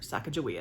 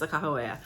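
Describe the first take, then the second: First: The middle consonant is a hard g sound. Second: The middle consonant is an h sound. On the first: This is the common popular pronunciation. "as a lot of people call her" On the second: This is the pronunciation reported as correct. "I've been told that the correct pronunciation is Sakahawea"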